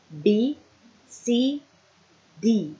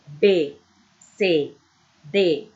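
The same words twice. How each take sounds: First: B, C, D said as bee, see, dee, ending in an I sound; English way, each letter ends on EE; English letter names. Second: B, C, D said as bê, cê, dê, ending in an E sound; Portuguese way, each letter ends on E; B, C, D with Portuguese vowel endings; Portuguese letter names. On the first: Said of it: "But in English, we can use". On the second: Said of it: "em português, we can say". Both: Shown as a demonstration.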